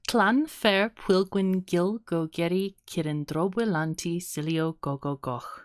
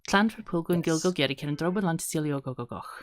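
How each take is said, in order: First: The name is said slowly, syllable by syllable. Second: The name is said quickly, rushing the syllables. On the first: "That's the slowish version" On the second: "try to say it three times fast"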